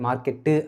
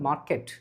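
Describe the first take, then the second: First: An extra vowel is added after the final consonant. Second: The word ends sharply on the final consonant. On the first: The speaker calls it wrong. "மார்க்கெட்டு அப்படின்னு சொல்றதுக்கு பதிலா" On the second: The speaker calls it right. "கரெக்ட்டா ஷார்ப்பா cut பண்ணி"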